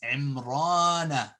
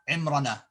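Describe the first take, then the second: First: The marked vowel is held long. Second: The marked vowel is clipped short. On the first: The speaker calls it right. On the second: The speaker calls it wrong.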